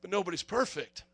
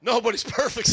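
First: Soft, sheepish excuse to the cop; mock-innocent murmur; meek excuse. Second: Said in the usual way. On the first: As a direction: drop the voice and plead innocence. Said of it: "And I go".

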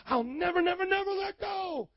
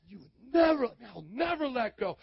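First: Climbing from high to a much higher shout; a mock believer's vow that swells to a high shout; building vow. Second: Said in the usual way.

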